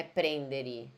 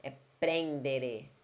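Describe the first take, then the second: First: Prendere ending in i; wrong pronunciation. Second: Prendere slowly, with a clear final e; correct pronunciation, slow. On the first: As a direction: say prendere with a final i sound. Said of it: "Não é prendere". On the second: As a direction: stress the clean e at the end of prendere. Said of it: "Com E mesmo no final". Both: Shown as a demonstration.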